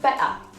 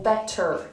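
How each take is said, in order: First: It is said in a Geordie accent, ending in ah. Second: It is said in an American accent. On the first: "a Geordie might say something like better" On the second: "if you've learned American English"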